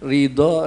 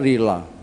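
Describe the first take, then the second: First: The middle consonant is the Arabic dhad sound. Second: The middle consonant is a plain L sound. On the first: "Kanjeng Nabi itu orang yang paling fasih melafatkan dhad" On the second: "Saya dan sampean tidak bisa bilang dhad"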